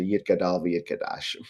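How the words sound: It is said in Israeli Sephardic style, with t sounds. This is the newer pronunciation adopted after the switch.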